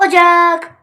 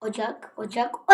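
First: Loud, high OCAK; sudden loud burst on "ocak"; playful shout. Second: Softly said, short OCAK; understated, muted word. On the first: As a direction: call out "ocak" high and drawn out. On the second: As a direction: say "ocak" quietly, holding back. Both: Pretend. Same word repeated, then shouted.

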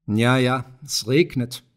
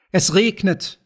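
First: Lightly voiced, settled old-farmer remark; meadow farmer. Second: Higher-pitched, lightly voiced children's call. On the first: Meadow farmer with his pipe in the gateway, calmly conceding. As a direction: concede it evenly, a hint of the farmer. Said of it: "sagte auch der Wiesenbauer". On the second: Children running through the raindrops, calling out high. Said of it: "riefen die Kinder". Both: A narrator's reading.

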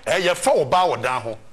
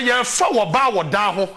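First: Lower, put-on voice for the repeated quote; mock retold quote. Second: Said in the usual way. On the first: Host retelling what people tell the poor, in a lower put-on voice. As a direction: repeat the saying lower, in a borrowed voice.

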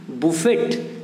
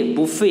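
First: बुफेट as "boo-FET"; wrong buffet, t sounded. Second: बुफे as "boo-FAY"; correct buffet, silent t. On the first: Teacher reads it off the spelling, बुफेट as "boo-FET". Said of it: "लेकिन बुफेट नहीं है ये". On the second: Teacher corrects the spelling reading, बुफे as "boo-FAY". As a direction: leave बुफे open, with no t. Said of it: "क्या है ये". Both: Shown as a demonstration.

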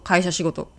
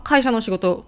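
First: 会社仕事 said as one compound without の; linking particle dropped. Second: Said in the usual way. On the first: Shown as a demonstration. Teacher testing if it sounds natural, 会社仕事 with particle dropped. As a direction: go straight from 会社 into 仕事, no の. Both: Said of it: "のを省いてもオーケー".

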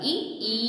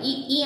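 First: "ఈ, ఈ" with the first short, the second drawn out long; long second vowel. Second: "ఈ, ఈ" with both sounds short, no lengthening; wrong short vowel. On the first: Teacher showing pupils the right way, second "ఈ" stretched long. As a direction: hold the second sound of "ఈ, ఈ". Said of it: "అని పలకాలి". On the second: Teacher mimicking pupils' mistake, "ఈ, ఈ" both short. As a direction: cut the second sound in "ఈ, ఈ" as short as the first. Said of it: "అంటున్నారు మీరు". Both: Shown as a demonstration.

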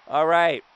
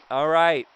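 Both takes have the same delivery.

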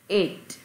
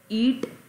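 First: Ate with an "ay" vowel and crisp t. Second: ईट with a long "ee" vowel; wrong vowel. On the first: Teacher models for pupils, "ay" sound in ate. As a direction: say ate to rhyme with late. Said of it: "ईट नहीं आएगा". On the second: Teacher shows pupils the sound to avoid, ee in ईट. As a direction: say ईट with a drawn-out ee sound. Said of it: "नहीं आएगा". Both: Shown as a demonstration.

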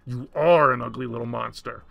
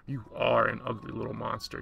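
First: Loud, emphatic insult without raised pitch; mental shout. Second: Said in the usual way. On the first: A narrator's reading. Woman shouts at the monster in her mind, loud and forceful. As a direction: hit it hard, leaning loudly on ARE. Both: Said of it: "I shouted in my mind's loudest voice".

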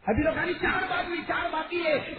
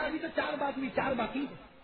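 First: Higher and louder second take; raised repeat. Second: Said in the usual way. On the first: Acted. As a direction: push the count out hard, insisting. Old man repeats his count, raised.

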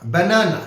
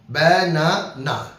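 First: Said in the usual way. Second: Slow banana, broken into its three syllables; slow teacher demo of banana in three parts; split into syllables. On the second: Shown as a demonstration. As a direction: draw banana out slowly, syllable by syllable. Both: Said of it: "তিনটা আছে".

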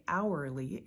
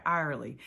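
First: HOURLY enunciated as "OW-er-lee"; careful enunciation. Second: Louisiana country HOURLY, said "AR-lee"; country accent squashing HOURLY to "AR-lee". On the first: Trader slowing herself down for viewers, careful enunciation. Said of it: "and I slow myself down". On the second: Trader admitting what she wants to say, country accent. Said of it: "because I want to say hourly". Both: Shown as a demonstration.

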